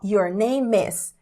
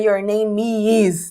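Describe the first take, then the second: First: Name links straight into is without a vowel. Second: An extra vowel sound separates name from is. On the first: The speaker calls it right. "É só your name is" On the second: The speaker calls it wrong. "Não diga your name is, não tem esse i"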